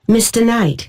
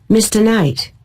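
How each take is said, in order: No difference in how they are said.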